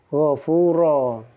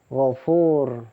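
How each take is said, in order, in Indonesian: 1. Kata ini berakhir dengan vokal panjang, tanpa n. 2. Kata ini berakhir dengan konsonan r. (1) "dibacanya gofuro" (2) "bukan gofur"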